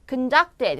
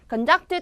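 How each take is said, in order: First: The stress is on the second syllable. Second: The stress is on the first syllable. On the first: The speaker calls it right. "conducted 할 때도 이음절 강세예요" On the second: The speaker calls it wrong. "conducted가 아니라"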